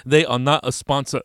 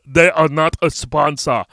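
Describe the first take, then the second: First: Said in the usual way. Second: Slow, louder, every word of "They are not a sponsor" set apart; emphatic mock disclaimer. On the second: Podcaster jokingly repeating a sponsor disclaimer, slowly emphatic.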